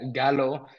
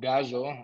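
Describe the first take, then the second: First: The middle consonant is said as an L sound. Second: The middle consonant is said as a Y-like sound. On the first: The speaker calls it wrong. "we've been calling him" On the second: The speaker calls it right. "but it's actually"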